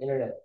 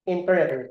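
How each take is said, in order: First: A syllable is swallowed in fast speech. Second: Every syllable is clearly pronounced.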